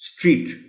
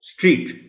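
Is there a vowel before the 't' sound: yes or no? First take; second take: no; no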